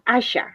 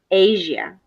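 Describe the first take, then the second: First: The name is said with Polish pronunciation. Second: The name is said with English pronunciation. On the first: "In Polish language, uh, you you pronounce it Asia" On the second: "in uh, English, Asia"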